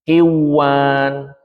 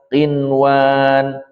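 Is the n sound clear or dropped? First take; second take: dropped; clear. First: The n sound is dropped and merged. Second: The n sound is pronounced clearly. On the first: The speaker calls it wrong. "Bukan dibaca" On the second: The speaker calls it right. "nunnya dibaca jelas di sini"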